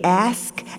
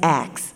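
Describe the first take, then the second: First: The s sound comes before the k. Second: The k sound comes before the s.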